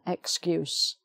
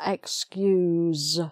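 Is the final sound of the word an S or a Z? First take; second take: S; Z. First: The word ends with a hissing s sound. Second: The word ends with a buzzing z sound. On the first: It is the noun. "So with an S sound" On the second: It is the verb. "So that's the Z one"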